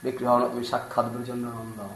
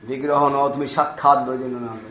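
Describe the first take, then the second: First: Softly, in awe of the deity; awed Bengali murmur; hushed reverent quote. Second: Said in the usual way. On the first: Acted. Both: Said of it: "immediately Vigraha".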